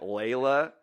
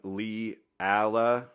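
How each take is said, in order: First: The name has two syllables, starting with 'lay'. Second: The name has three syllables, starting with 'lee'. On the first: The speaker calls it right. "You meant Layla?" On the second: The speaker calls it wrong. "I thought it was pronouncing the name Lee Alla"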